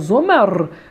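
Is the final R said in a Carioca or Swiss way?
Swiss. The final R is said the Swiss way. "para o pessoal que mora na Suíça"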